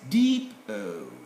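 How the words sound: The first vowel is long, as in 'deep'.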